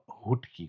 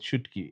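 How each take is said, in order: First: The word begins with an h sound. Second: The word begins with a sh sound. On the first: The speaker calls it wrong. "as long as it's not hutki. Because what the hell is a H?" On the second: The speaker calls it right. "I'm calm with shutki"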